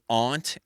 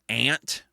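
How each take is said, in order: First: A posh-sounding, non-Midwestern pronunciation of the word. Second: The plain local Midwestern pronunciation of the word. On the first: The speaker feels it sounds like putting on airs. "I make such a conscientious decision to say aunt" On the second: It is how everyone around the speaker says it. "everybody around me says aunt"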